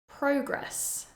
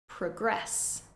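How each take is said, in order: First: The stress is on the first syllable. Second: The stress is on the second syllable. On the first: It is a noun. "the noun form, stressing the first syllable" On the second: It is a verb. "the verb form, stressing the second syllable"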